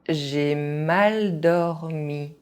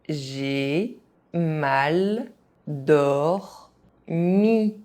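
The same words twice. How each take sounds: First: It is said at an ordinary speaking pace. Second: It is said very slowly, syllable by syllable. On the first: This is the pace learners should use. "at a normal pace" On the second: Each syllable can be followed. "very slowly"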